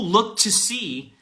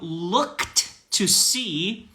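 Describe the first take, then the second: First: The t of looked merges into to. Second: The t of looked is said separately.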